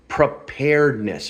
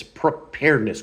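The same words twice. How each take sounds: First: Said in the usual way. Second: A dry, lightly ironic preparedness with a falling end; air-quote sarcasm. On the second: Shown as a demonstration. Reviewer teasing the prepper buzzword with dry irony. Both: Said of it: "quote fingers activated".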